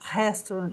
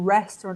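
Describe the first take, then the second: First: The first sound is a breathy H-like sound. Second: The first sound is an English R. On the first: The speaker calls it wrong. "eu tenho certeza que alguém vai falar restaurant aqui" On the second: The speaker calls it right. "tem que falar restaurant"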